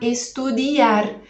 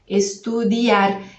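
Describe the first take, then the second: First: The i is stressed and drawn out. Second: The i is quick and the a is stressed. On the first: The speaker calls it wrong. "para você não falar estudiar" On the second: The speaker calls it right. "Esse I, ele é mais fraquinho que o A. O A é que a gente vai pronunciar com mais ênfase"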